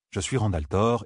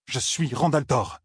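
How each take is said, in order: First: Said in the usual way. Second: Slow, higher, stress on Rand; "Rand" weighted, slow falling affirmation; firm self-assertion. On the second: A narrator's reading. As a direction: hold on to "Je suis Rand al'Thor" with slow insistence. Rand asserts identity, clinging on.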